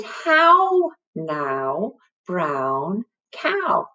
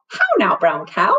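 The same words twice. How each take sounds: First: Each word drawn out, HOW raised; slowly modelled rhyme. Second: Said in the usual way. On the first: Shown as a demonstration. Teacher introduces the little rhyme, slow and drawn out. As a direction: stretch out "How now, brown cow" word by word.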